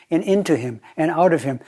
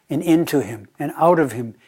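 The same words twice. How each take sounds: The two takes are said the same way.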